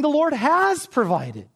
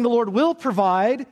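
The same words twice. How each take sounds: First: "has provided" slow and settled, falling firm; looking back. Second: "will" stressed, rising, the promise still ahead; "will" lifted and rising; looking forward. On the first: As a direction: land "has provided" slowly, done and certain. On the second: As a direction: lean on "will" with an upward lift. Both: Shown as a demonstration. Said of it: "You're looking back and saying".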